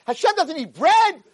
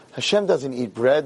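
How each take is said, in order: First: High, slow, emphatic yell; acted exasperated rebuke; furious scolding. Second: Slow, subdued, deflated admission; mildly acted dejection; broken. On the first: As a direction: lay down the law as an outraged rabbi. Rabbi berates the naive man. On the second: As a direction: pass on bad news, crushed. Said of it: "These two were tzubrachim".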